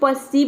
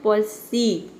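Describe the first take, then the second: First: The first syllable is short and clipped. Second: The first syllable is drawn out with a vowel. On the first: The speaker calls it wrong. "परसीव नहीं बोलना है, प नहीं बोलना है" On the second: The speaker calls it right. "प को थोड़ा आपको लंबा बोलना है। प में और अ लगाना है"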